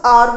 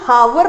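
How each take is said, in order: First: The word starts with a vowel, no h. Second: The word starts with an audible h sound. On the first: The speaker calls it right. "Of course आर होता है" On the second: The speaker calls it wrong. "हावर ना होकर"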